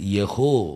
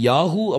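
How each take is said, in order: First: It is pronounced with e and o. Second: It is pronounced with a long a and u. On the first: The speaker calls it right. "இது யெகோ" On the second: The speaker calls it wrong. "இல்லாட்டி யாஹூ அப்படின்னு கிடையாது"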